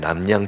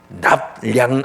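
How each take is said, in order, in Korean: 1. 첫 음절은 'm' 소리로 끝나요. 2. 첫 음절은 'p' 소리로 끝나요. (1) "원래 그 남량이 아니라" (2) "납량인 건 아시죠?"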